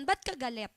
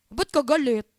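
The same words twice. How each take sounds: First: Said in the usual way. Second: "Ba't ka galit" louder, with rounded, distorted vowels; put-on vowels. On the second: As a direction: say "Ba't ka galit" playfully, vowels rounded toward "but ko golut". Repeats question with put-on vowels. ("Ba't ka galit" na binilog at binago ang mga patinig)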